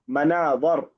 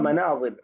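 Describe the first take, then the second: First: The vowel after the 'z' sound is not 'i'. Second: The vowel after the 'z' sound is 'i'. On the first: The speaker calls it wrong. "خطأت في كلمة مناظر" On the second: The speaker calls it right. "اللفظ الصحيح هو مناظر ... بكسر الضاء"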